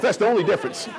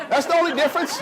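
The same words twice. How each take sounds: First: Said in the usual way. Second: Higher, rising stress on only; punchline emphasis. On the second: Real, not acted. To the audience, playful higher punchline. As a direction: punch the joke home.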